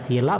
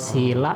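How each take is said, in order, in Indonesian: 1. Vokal i-nya pendek. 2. Vokal i-nya panjang. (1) "berarti sila itu kan batu" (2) "berarti kemoralan"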